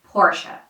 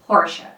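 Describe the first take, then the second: Both takes have the same delivery.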